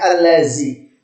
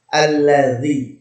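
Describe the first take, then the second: First: The middle consonant is a z sound. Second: The middle consonant is a soft th sound. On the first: The speaker calls it wrong. "Jangan sampai allazi" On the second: The speaker calls it right. "di sini harus dibaca dzal ya"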